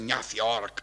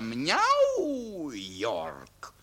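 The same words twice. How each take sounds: First: The name is read out Czech-style, letter by letter. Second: The name is said with an English-like pronunciation. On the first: The speaker calls it wrong. "Neříká se New York" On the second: The speaker calls it right. "ale New York. Pamatuj si to"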